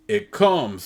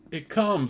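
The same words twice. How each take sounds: First: High ecstatic cry. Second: Pilgrims echoing the cry; ecstatic cry. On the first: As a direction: cry it out in rapture. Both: Acted. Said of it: "they cry".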